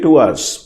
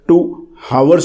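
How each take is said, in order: First: 'Hours' begins with a vowel, h silent. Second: 'Hours' begins with an audible h sound. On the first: The speaker calls it right. "आपको कहना चाहिए two आवर्स" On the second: The speaker calls it wrong. "लोग अक्सर टू हावर्स बोल देते हैं, it is wrong"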